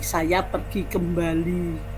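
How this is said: A nasal sound comes before the b.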